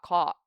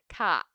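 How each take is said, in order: First: The vowel is made further back. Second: The vowel is made too far forward. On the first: The speaker calls it right. "I think it's like that" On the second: The speaker calls it wrong. "No, that's too forward"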